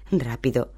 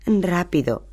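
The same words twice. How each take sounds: First: Said in the usual way. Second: A frightened cry, pitch jumping higher; whimpering. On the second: A narrator's reading. Hermione fleeing the werewolf, frightened whimpering cry. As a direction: gasp it in panic as the werewolf nears. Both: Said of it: "gimió".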